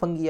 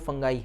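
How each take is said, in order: First: A hard g, ending in an ee sound. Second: A hard g, ending in eye. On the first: The speaker calls it wrong. "फंगी जो आप बोलते हैं ना ... वो गलत है" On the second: The speaker calls it right. "इसका जो करेक्ट प्रोनाउंसिएशन है वो फंगाई है"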